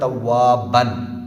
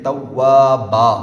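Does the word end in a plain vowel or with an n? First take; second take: with n; plain vowel. First: The word ends with an n sound. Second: The word ends in a long a vowel. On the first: This is the form as it is written. "हालांकि लिखा हुआ है तव्वाबन" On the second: This is how it is read when stopping. "हम इसको पढ़ते हैं एंड पे तव्वाबा"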